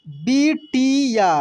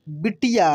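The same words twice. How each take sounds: First: बिटिया slowly as bi, ti, yaa; syllable by syllable. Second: Said in the usual way. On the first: Shown as a demonstration. Teacher reading for learners, बिटिया slowly syllable by syllable. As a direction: stretch out each syllable of बिटिया. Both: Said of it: "अब direct पढ़ते हैं".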